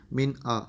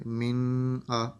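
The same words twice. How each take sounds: First: من آ with the noon said clearly, no nasal hum; clear izhar. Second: من آ with the noon hummed through the nose; nasal ghunna on من wrongly held before آ; wrong nasalized reading. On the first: Teacher showing the correct izhar reading. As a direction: keep the ن in من آ crisp before آ. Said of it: "ظاہر کر کے پڑھا". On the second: Teacher demonstrating the wrong ghunna reading. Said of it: "یہ غلط ہے". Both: Shown as a demonstration.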